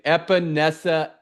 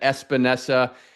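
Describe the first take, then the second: First: No s sound comes before the p. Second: An s sound comes before the p. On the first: The speaker calls it right. "It's actually Epinesa" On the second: The speaker calls it wrong. "you've added an S on Epinesa, have said Espinesa"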